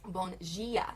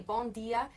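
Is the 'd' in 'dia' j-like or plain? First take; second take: j-like; plain. First: The d in dia sounds like j. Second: The d in dia is a plain d. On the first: This is the southern Brazilian way. "In the south... The D turns to a G" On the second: This is the northern Brazilian way. "up here in the north, we say"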